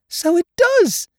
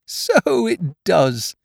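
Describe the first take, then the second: First: Very high, loud squeak; amazed Piglet. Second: High, slow, drawn-out marvelling; amazed Pooh. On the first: Piglet seeing the balloon fit, amazed squeak. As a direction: squeal it slowly in delight. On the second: Pooh seeing the balloon fit, amazed. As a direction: stretch it out in wonder. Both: A narrator's reading.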